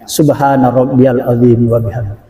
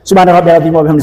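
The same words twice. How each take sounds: First: The phrase is recited slowly and calmly. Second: The phrase is recited quickly and hurriedly. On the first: The prayer is performed with proper calm. The speaker calls it right. "Pas itu coba perhatikan" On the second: The prayer is rushed without tranquility. The speaker calls it wrong. "jangan bacanya kayak gini"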